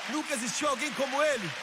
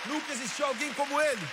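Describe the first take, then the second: No difference in how they are said.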